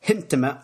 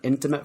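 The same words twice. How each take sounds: First: The word starts with an added h sound. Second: The word starts directly with a vowel sound. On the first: "you put an H where there isn't an H" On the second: "rather than"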